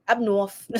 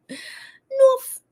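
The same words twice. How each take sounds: First: Said in the usual way. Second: Much higher, squeaky North; squeaky playful. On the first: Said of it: "go with up north". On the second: Pretend. Streamer teasing chat, squeaking North up high.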